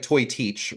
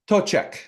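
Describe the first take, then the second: First: It is said as two syllables, 'toy teach'. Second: It is said as two syllables, 'tochek'. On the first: The speaker calls it wrong. "it looks like toy teach" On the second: The speaker calls it right. "it's not that"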